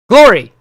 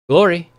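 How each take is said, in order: First: It is shouted at full volume. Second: It is said more loudly than before.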